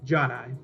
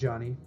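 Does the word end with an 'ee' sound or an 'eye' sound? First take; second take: eye; ee. First: The word ends with an 'eye' sound. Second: The word ends with an 'ee' sound. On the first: The speaker calls it right. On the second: The speaker calls it wrong.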